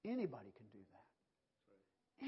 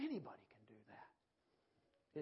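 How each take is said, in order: First: Slow, drawn out, stressing anybody; slow preaching emphasis. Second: Slow, deliberate repeat; slow preaching emphasis. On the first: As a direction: lean on it slowly for the church. Preacher repeats slowly. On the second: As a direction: let it sink in slowly. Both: Acted.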